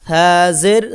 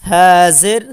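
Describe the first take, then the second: No difference in how they are said.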